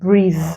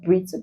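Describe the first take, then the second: First: The word ends with a voiced th sound. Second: The word ends with a hard d sound. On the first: The speaker calls it right. "but breathe" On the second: The speaker calls it wrong. "this is not breathe"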